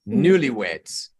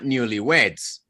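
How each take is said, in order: First: The stress falls on the first part, newly. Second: The stress falls on the last part, weds. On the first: The speaker calls it right. "it's always going to sound with the first syllable or the first word stress" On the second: The speaker calls it wrong. "here is not newlyweds. Cannot be because it's one single word"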